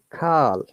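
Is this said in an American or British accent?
American. It is said with an American accent. "Americans do not pronounce that way. They say"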